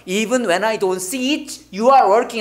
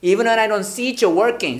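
First: "see it, you are working" with every word separate; unlinked reading. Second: "see it, you're working" flowing as "see-cher working"; linked ch sound. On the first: Teacher shows what not to say, word-by-word pronunciation. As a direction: keep "it" and "you are" apart, fully pronounced. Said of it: "이라고 발음 안 돼". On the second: Teacher models the natural version after correcting, linked pronunciation. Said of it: "처로 발음 납니다". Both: Shown as a demonstration.

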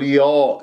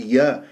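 First: يا darkened toward yo; heavy ya, wrong. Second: يا with a thin front a; light ya. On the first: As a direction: make يا thick and back. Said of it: "لا أفخمها أقول يا". (يا بتفخيم الياء) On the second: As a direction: keep يا light and open. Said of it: "يا مرققة". (يا بترقيق الياء) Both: Shown as a demonstration.

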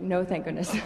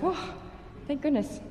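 First: Relief taken back, with a laugh; deflated mock relief breaking into laughter; rueful retraction. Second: High, breathed-out mock relief; relieved sigh into higher pitch; retold relief. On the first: Violinist jokes about having to practice, rueful and laughing. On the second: Violinist recalls finally arriving after flight delays, mock relief.

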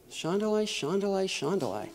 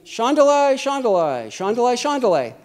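First: Very soft acted prayer syllables; private tongues. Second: Acted tongues aloud for the room; speaking out publicly. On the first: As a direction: murmur them softly to yourself. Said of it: "I can sit in my seat". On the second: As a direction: call out the syllables in full voice. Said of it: "you don't have somebody saying".

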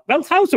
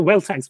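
First: Wealth House with "House" rhyming with mouse; alternative pronunciation. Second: Wealth House with "House" said like "hice"; "House" with a long "i" vowel; alternative pronunciation. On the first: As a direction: say House with an "ow" vowel. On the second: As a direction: say House to rhyme with ice. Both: Shown as a demonstration. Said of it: "What is it, [name]?".

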